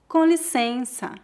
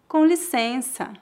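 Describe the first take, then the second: Both takes have the same delivery.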